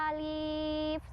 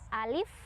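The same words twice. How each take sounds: First: The first vowel is held long. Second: The first vowel is kept short. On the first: The speaker calls it wrong. "nggak pernah tuh baca alif, salah" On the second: The speaker calls it right. "bacanya satu harokat"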